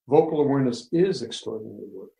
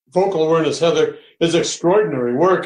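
First: It is said in a warm, caring tone. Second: It is said in an arrogant, boastful tone. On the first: The speaker sincerely cares about the listener. The speaker calls it right. "That's not arrogant. It's my care" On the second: The speaker is bragging about the work. The speaker calls it wrong. "Now that is stupid and arrogant"

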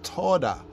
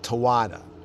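First: The word is said smoothly in two syllables. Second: The word is spelled out in three syllables. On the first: The speaker calls it right. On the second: The speaker calls it wrong.

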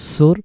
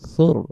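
First: The first consonant is a hissing 's' sound. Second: The first consonant is a soft 'th' sound. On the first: The speaker calls it wrong. "আমরা যদি বলি সুর তখন সিন হয়ে যেতে পারে" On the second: The speaker calls it right. "নরম করে আওয়াজটা ছেড়ে দেবো সৌর"

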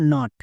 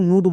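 First: The vowel is an open 'ah' sound. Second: The vowel is a rounded 'oo' sound. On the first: The speaker calls it right. "ইউ এর জন্য আকার হবে" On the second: The speaker calls it wrong. "ভুল করেও নুট বলা চলবে না"

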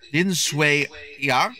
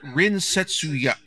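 First: The name is read with a Taiwanese Mandarin reading. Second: The name is read with a Japanese reading. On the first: This is the name as shown in the subtitles. "his name is written, I'm going to try to pronounce this correctly" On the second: This is the name the voice actors use. "but in Japanese it's pronounced"

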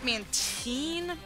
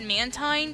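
First: The last syllable does not rhyme with 'nine'. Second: The last syllable rhymes with 'nine'. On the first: "I don't know how it's Mantine" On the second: "I personally pronounce it Mantine because it's spelled like with the number 9"

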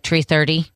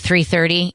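First: The number is said with Irish T and R sounds. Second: The number is said in a standard accent. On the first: "it'll be like 330" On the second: "Instead of saying 330"

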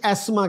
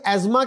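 First: The middle consonant is an s sound. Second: The middle consonant is a z sound. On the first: This is the British way of saying it. "British एस्मा कहते हैं" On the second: This is the American way of saying it. "American एज्मा कहते हैं"

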